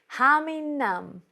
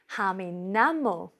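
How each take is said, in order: First: The last word is cut to one syllable, nam. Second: The last word has two syllables, namo.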